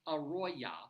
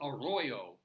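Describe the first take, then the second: First: The name ends with an 'ah' vowel. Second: The name ends with an 'oh' vowel. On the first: The speaker calls it right. "one R and an A on the end" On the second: The speaker calls it wrong. "I know you're thinking that I'm mispronouncing it"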